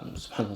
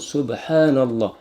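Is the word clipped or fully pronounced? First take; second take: clipped; full. First: The word is rushed and clipped, sounds dropped. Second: The word is said fully with every sound. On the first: The speaker calls it wrong. "comme ça? ... c'est même pas complet" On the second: The speaker calls it right. "on doit dire Subhanallah"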